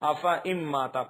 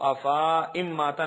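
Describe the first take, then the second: First: The vowel after f is kept short. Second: The vowel after f is drawn out long. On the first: The speaker calls it right. "बल्कि अफा इम माता पढ़ेंगे" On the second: The speaker calls it wrong. "उसको अफा इम माता नहीं पढ़ेंगे"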